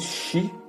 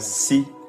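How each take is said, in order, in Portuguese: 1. Começa com o som chiado de sh. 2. Começa com o som sibilante de s. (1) "o som C H" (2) "se pronunciava em S"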